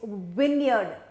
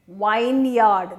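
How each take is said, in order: First: It is said as short 'vin' plus reduced 'yerd'. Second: It is said as full 'vine' plus 'yard'. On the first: The speaker calls it right. "it is vineyard" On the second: The speaker calls it wrong. "you make it into vineyard, that is what you do, and it is wrong"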